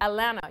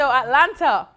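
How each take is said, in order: First: The middle T sound is dropped. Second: The middle T sound is clearly pronounced.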